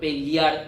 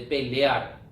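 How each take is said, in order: First: The vowel after 'l' sounds like 'i'. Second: The vowel after 'l' sounds like 'e'.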